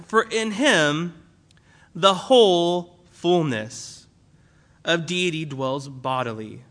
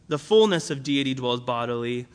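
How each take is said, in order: First: "whole" drawn out and weighted, slowly; stress on whole. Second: Said in the usual way. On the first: Shown as a demonstration. Pastor showing the church the stress on "whole", slow and weighty. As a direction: lean hard on "whole" in "the whole fullness". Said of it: "It's making a repetition". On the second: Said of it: "It doesn't just say".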